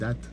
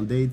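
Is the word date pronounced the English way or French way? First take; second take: French; English. First: The word is pronounced as the French word date. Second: The word is pronounced as the English word date. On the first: It means a day on the calendar. The speaker calls it right. "c'est une date" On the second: It means a romantic date. The speaker calls it wrong. "je le lis à l'anglaise"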